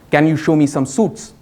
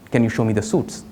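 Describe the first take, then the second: First: It is said louder. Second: It is said at normal, softer volume.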